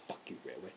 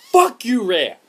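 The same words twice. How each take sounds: First: Very low, hushed aside; quiet curse. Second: Loud, high angry shout at the developer; angry outburst. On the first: Gamer still cursing the developer, low and quiet. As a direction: curse under your breath. Same curse repeated under the breath. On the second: Fed-up gamer cursing the developer, angry shout. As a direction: explode at them in anger. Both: Real, not acted.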